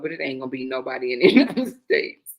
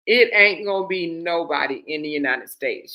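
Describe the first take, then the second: First: Low start that cracks into a laugh; deadpan giving way to laughter; breaking into laughter. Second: Low, firm "It ain't gonna be nobody"; "nobody in the United States" said low, with no laugh; emphatic restatement. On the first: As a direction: lose it near the end of the sentence. Cracks up mid-sentence, then repeats it. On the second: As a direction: hit "It ain't" hard and hold steady. Repeats it composed after cracking up. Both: Real, not acted.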